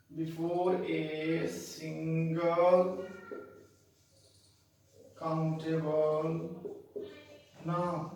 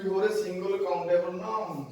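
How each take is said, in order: First: Very slow, word by word; dictation. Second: Said in the usual way. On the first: Shown as a demonstration. Teacher repeating the rule for learners, slow dictation. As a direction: dictate slowly with long gaps between words.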